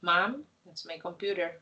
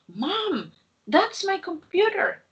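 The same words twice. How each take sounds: First: It is said flatly, with little pitch movement. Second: It is said lively, with strong expressive intonation. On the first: The speaker calls it wrong. "it's not like" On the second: The speaker calls it right. "you have to read uh, using the intonation"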